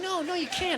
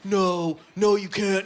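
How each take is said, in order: First: It is said in a put-on girlish voice. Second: It is said in the speaker's natural voice. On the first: The speaker calls it right. "when I do that girl voice" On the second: The speaker calls it wrong. "I can't just be like, ... because who is that girl? And why is she so angry and tall?"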